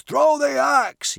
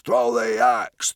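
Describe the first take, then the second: First: Chanted, very high, loud joyful shriek of Throw the axe; the chant peaks into a frenzied scream. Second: Steady chant. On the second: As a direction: Throw the axe chanted loud at normal pitch. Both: Acted. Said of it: "yelled the hysterics joyously".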